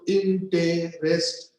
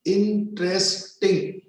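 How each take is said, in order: First: "interesting" broken as in-te-res-ting; split in four syllables. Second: "Interesting" slowly broken as in-tres-ting; split in three syllables. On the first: Teacher showing the other pronunciation, four syllables. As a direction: say "interesting" in four separate beats, every vowel sounded. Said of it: "four syllables". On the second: Teacher showing one pronunciation of the word, three syllables. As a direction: say "Interesting" in three separate beats, middle e dropped. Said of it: "three syllables". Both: Shown as a demonstration.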